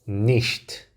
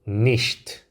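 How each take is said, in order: No difference in how they are said.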